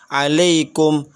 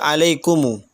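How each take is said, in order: First: The word ends on the consonant m. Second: The word ends with an added u vowel.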